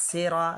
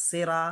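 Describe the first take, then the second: The two takes are said the same way.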